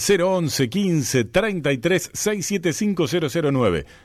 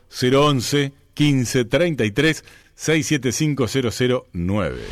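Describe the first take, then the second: First: The number is said quickly. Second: The number is said slowly.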